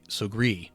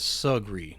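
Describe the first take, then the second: First: First syllable like good, last syllable strongly stressed. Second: First syllable like jug, last syllable barely pronounced. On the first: The speakers are the wealthy, established side of the river. "rhyming the first syllable with good, and coming down hard on the last syllable" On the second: The speakers are the landowners across the river. "rhyming the first half with jug and barely giving breath to the end of the word"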